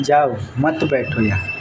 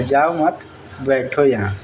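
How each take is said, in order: First: जाओ set apart, then मत बैठो यहाँ together; pause after जाओ. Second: जाओ मत as one phrase, then बैठो यहाँ; pause after मत. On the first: Teacher giving the intended meaning, pause after जाओ. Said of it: "हम बोले हैं". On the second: Teacher showing the listener's misreading, pause after मत. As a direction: break after मत, before बैठो. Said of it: "अगला आदमी ये समझ लेता है". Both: Shown as a demonstration.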